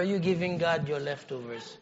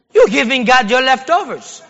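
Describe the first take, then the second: First: Soft aside. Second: Louder, hammered home; emphatic repeat. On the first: Quiet first take of the phrase. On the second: Preacher rebuking the congregation, loudly repeating the point. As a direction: drive the point in hard the second time. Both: Acted.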